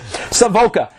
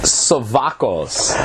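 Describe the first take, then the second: First: The name ends with a vowel sound. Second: The name ends with an s sound. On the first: The speaker calls it right. "listen to me" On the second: The speaker calls it wrong. "I say this wrong every time"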